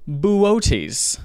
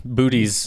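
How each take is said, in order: First: "Buotes" in three syllables, boo-OH-teez; correct pronunciation. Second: "Booties" said in two syllables, BOO-teez; mispronunciation attempt. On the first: Host teaching co-host the constellation's name, "Buotes" pronounced boo-OH-teez. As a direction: stress the middle OH in "Buotes". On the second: Host guessing at a constellation's name, mispronounced as "Booties". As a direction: say "Booties" to rhyme with cuties. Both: Shown as a demonstration. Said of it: "it's actually pronounced".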